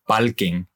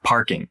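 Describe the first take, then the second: First: The sound before the k is like an L. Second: The sound before the k is like an R. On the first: This is how the word sounds in Puerto Rican Spanglish. "they'll say things like palking" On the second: This is the standard English pronunciation. "instead of parking"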